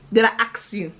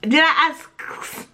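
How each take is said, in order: First: "ask" said as "aks". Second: Said in the usual way. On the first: Shown as a demonstration. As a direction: swap the sounds in "ask" to make "aks". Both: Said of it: "Is it a ask?".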